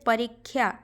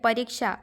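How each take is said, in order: First: The cluster is said with the Odia sound. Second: The cluster is said with the Hindi sound.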